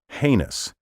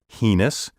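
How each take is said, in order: First: The word is said with the dictionary pronunciation. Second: The word is said with a nonstandard pronunciation. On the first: The speaker calls it right. "The only pronunciation recognized by dictionaries is heinous" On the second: The speaker calls it wrong. "mispronounce this word as heinous"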